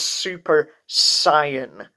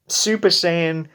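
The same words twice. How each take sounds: First: The second word rhymes with trying. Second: The second word does not rhyme with trying. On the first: The speaker calls it wrong. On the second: The speaker calls it right.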